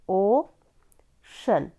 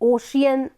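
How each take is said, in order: First: It is said as two syllables, o-shun. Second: It is said as three syllables, o-shi-an. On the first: The speaker calls it right. "उसको बोलते हैं ओशन" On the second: The speaker calls it wrong. "कुछ और pronounce मत करिएगा"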